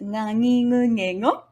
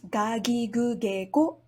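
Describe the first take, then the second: First: Each syllable starts with a nasal ng sound. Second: Each syllable starts with a hard g sound. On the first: "sometimes pronounced ngangingungego" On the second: "sometimes pronounced gagigugego"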